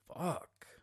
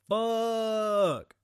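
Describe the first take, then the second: First: It is a breathy, aroused moan. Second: It is an awed, admiring exclamation. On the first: The speaker is about to climax. "I'm about to bust quick as shit" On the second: The speaker admires a car. "That's a dope-ass car"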